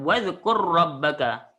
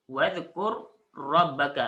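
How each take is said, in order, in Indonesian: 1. Dua bunyi r menyatu jadi satu r bertasydid. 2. Kedua bunyi r dibaca terpisah. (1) "Terus sambung" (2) "Asalnya tak ada tasydid"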